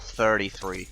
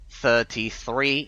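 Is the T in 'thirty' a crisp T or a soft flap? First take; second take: soft flap; crisp T. First: The T in thirty is a soft flap. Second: The T in thirty is a crisp, clear T. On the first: "instead of" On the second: "I still keep the a lot of my original uh, Cambridge uh, pronunciations"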